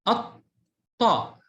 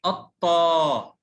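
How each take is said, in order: First: الطاء with a silent lam and doubled t, short ending; doubled consonant. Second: الطا with the final "aa" held long; slow, drawn-out الطا with long alif; long vowel. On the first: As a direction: hold the t in الطاء, as "at-Ta". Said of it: "حرف الطاء ينطق كم مرة". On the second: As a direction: stretch the ending of الطا, "at-Taaa". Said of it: "الطا مع مد الألف". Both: Shown as a demonstration.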